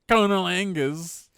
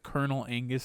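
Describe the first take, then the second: First: It is said in a Southern accent. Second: It is said in a plain, ordinary accent.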